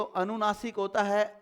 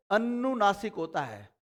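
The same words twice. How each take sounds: First: Said in the usual way. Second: "अनुनासिक" begun with a held, doubled n: an-nu-naasik; negated term. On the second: Shown as a demonstration. Teacher naming the second vowel type, "अनुनासिक" with doubled n. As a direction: lengthen the first n in "अनुनासिक", as an-nunaasik.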